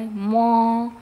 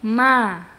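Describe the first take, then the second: First: The syllable is heavy, with a dark vowel. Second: The syllable is light, with a bright vowel. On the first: The speaker calls it wrong. "Jangan di mo ya" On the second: The speaker calls it right. "tapi ma, keluarkan infitah"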